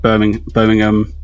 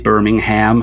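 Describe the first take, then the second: First: It is said with a British pronunciation. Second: It is said with an American pronunciation.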